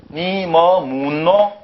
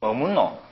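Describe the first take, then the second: First: Drawn-out, even-toned Seoul reading of "니 뭐 묻노"; exaggerated slow Seoul intonation; Seoul accent. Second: Quick, natural Gyeongsang "뭐 묻노", pitch falling; Gyeongsang accent. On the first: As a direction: read it very slowly as a Seoul speaker would. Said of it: "이걸 서울 사람 말로". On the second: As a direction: ask it as a Gyeongsang local would. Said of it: "경상도 사람 읽으면 다르죠". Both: Shown as a demonstration.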